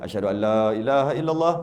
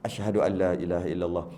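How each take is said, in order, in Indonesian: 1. Frasa itu diucapkan dengan keras dan penuh. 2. Frasa itu diucapkan dengan pelan dan lirih.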